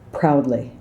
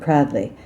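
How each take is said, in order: First: The vowel sounds like 'ow' in pain. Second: The vowel sounds like a flat 'ah'. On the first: The speaker calls it right. "like ow" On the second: The speaker calls it wrong. "It's not kind of an Essex or South London. It's not proudly"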